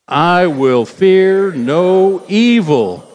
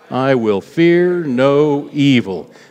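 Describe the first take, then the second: First: It is said loudly. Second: It is said at normal volume.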